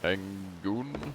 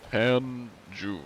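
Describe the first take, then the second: First: The name is said with a hard g sound. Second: The name is said with a j sound. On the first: The speaker calls it wrong. "That's not how you say that. I don't know why I said that as Tangoon" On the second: The speaker calls it right. "It's like, sounds Korean"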